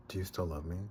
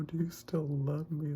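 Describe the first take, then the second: First: Said in the usual way. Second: High, slow weepy wail; drawn-out, high-pitched mock crying; tearful. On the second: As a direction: wail it as if moved to tears. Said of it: "I started crying".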